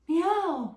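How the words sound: The meow is soft and sweet, like a nice kitty. The speaker calls it wrong. "not the nice kitty like meow"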